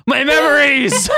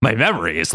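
First: High, drawn-out melodramatic yell; gasping yell. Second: Said in the usual way. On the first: Acted. Logan gasps as his memories return, yelling. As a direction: yell it high, stretching the words. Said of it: "He gasped and yelled". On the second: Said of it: "Logan asked".

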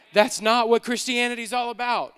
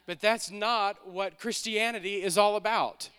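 First: Loud, forceful preaching; emphatic repeat. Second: Said in the usual way. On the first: Real, not acted. Preacher correcting the church's idea of faith, emphatic and loud. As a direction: drive the point home at full volume.

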